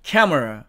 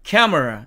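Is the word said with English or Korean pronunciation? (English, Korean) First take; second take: English; English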